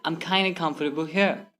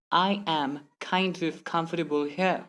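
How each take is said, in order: First: "kinda" joined into one smooth word; merged letters. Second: Slow, "I am kind of" in separate words. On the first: Teacher repeating the faster example, merged words. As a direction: run "I'm kinda" together. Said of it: "simply say". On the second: Teacher repeating the slow example, word-by-word. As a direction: keep every word apart. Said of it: "Instead of saying". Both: Shown as a demonstration.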